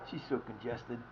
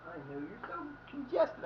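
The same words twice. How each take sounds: First: Said in the usual way. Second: High, soft cooing to a pet. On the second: Real, not acted. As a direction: coo it at the dog in a high voice. Baby talk to his dog.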